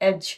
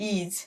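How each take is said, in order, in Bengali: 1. স্বরধ্বনিটি একটি ছোট 'eh' উচ্চারণ। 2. স্বরধ্বনিটি একটি 'ee' উচ্চারণ। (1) "এটির উচ্চারণ হবে এজ" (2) "নট ইজ"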